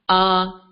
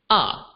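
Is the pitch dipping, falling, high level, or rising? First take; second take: high level; falling. First: The pitch stays high and level. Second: The pitch drops sharply from high to low. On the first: "the high and flat tone, known as the first tone" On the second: "the tone drops down. So this is known as the fourth tone"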